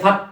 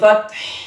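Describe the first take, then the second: First: The word ends abruptly without an h. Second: The word ends with an audible breathy h. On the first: The speaker calls it wrong. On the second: The speaker calls it right.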